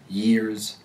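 An American accent, pitch falling on the R ending. "In American, pronounces R endings by descending in pitch"

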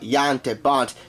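The name is pronounced with Dutch sounds. The speaker calls it right.

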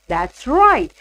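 The voice falls at the end. The speaker is agreeing that something is correct. "So for statement, my stress is on that. So it is from high to low"

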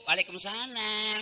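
It is said in a soft, sultry voice.

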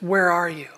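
It is said gently, with sorrow and longing. A heartbroken father is seeking his child. The speaker calls it right. "really the tone that God had is, ... The heart of a broken father"

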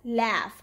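The vowel is pronounced the American way. "In American English, they pronounce this word as laugh"

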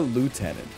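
It is said in an American accent. "In America"

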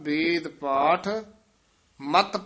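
There is a pause after ਪਾਠ. The speaker calls it right. "ਇੱਥੇ ਵਿਸਰਾਮ ਲਾਉਣਾ ਹੈ"

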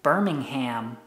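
It is said in an American accent. "some Americans say Birmingham"

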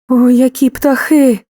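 The voice sounds frightened and afraid. The speaker is scared of the birds. "страх"

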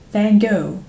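The name is said with a German-style pronunciation. The speaker calls it wrong. "even like Germans, to pronounce Van Gogh. Where they're like"

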